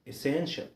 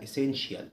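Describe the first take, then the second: First: The ending is said as one 'shal' sound. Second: The ending is said as separate t-i-a sounds. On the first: The speaker calls it right. "اسمها essential essential" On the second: The speaker calls it wrong. "ما تقولش عليها essential"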